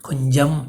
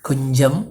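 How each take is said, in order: The two takes are said the same way.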